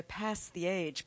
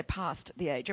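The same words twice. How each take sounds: First: Flat American vowel in PAST; American accent. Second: Long broad Australian A in PAST; Australian accent. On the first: Preacher mimicking how Americans read the verse, American accent. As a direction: say PAST with the short American A, as in cat. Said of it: "so Americans go". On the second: Preacher showing the congregation how Australians say it, Australian accent. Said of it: "'cause we say". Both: Shown as a demonstration.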